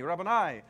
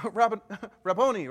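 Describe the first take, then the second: First: Said in the usual way. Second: Rabboni called out louder, with a laugh; mild cry of recognition. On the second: Retold or imitated. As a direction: call Rabboni out in joyful recognition. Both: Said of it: "cried out in Aramaic".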